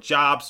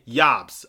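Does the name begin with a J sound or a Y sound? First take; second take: J sound; Y sound. First: The name begins with a J sound. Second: The name begins with a Y sound. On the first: The speaker calls it wrong. "It is not Mason Jobst" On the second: The speaker calls it right. "So it's actually Mason Yobst"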